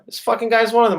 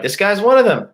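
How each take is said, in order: First: High heated repeat. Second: High, louder heated jab. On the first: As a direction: jab again in contempt. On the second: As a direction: spit it out in contempt. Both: Real, not acted. Ranting about the stepdad.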